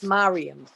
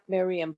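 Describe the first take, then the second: First: The first vowel sounds like 'ah'. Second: The first vowel sounds like 'ee'. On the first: The speaker calls it right. "It's Mariam. Mem resh yud mem, but a patach at the bottom" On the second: The speaker calls it wrong. "It's actually not Miriam"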